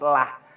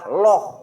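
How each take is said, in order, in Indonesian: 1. Suku katanya diucapkan ringan, dengan vokal yang jelas. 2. Suku katanya diucapkan berat, dengan vokal yang lebih gelap. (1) "tarkik itu lafad Allah sebelumnya berharokat kasroh" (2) "tafkhim itu lafad Allah sebelumnya berharokat fathah atau domah"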